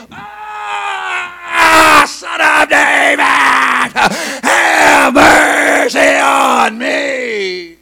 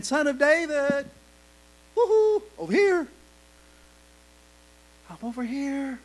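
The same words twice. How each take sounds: First: Loud, higher shout, mercy stretched very long; violent cry for mercy. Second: Mock casual call. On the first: Acted. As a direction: cry out with everything inside. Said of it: "he got really violent in his crying out". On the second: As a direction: tease it as a lazy little wave. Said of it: "he's not just saying".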